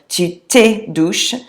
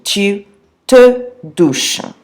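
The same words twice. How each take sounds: First: The vowel in te does not match je. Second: The vowel in te rhymes with je. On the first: The speaker calls it wrong. "that's not the correct pronunciation" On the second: The speaker calls it right. "te rhymes with je"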